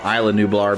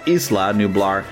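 First: Isla starts with the eye sound of island. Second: Isla does not start like the word island. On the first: This is the newer pronunciation, like the given name. "they'll pronounce it Isla, and if you think island" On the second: This is the usual pronunciation among fans of the original movies. "We usually call it Isla Nublar for fans of the original movies"

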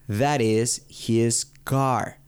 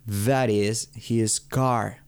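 Both takes have the same delivery.

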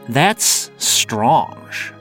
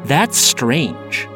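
First: It is said with a French-sounding accent. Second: It is said with a plain American accent.

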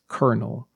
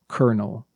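First: The word is said quickly as one unit. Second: The word is said quickly as one unit.

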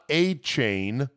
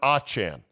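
First: The second syllable sounds like 'chain'. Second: The second syllable does not sound like 'chain'. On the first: The speaker calls it wrong. "Not A-Chain" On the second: The speaker calls it right. "but Achan"

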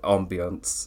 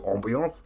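First: The word is said in a toned-down, odd way. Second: The word is said in a comic, exaggerated way. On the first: "That's why I say the word weirdly now, because I'm not saying it right, but not saying it like that" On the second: "He says the word as ambiance. I don't go ambiance"

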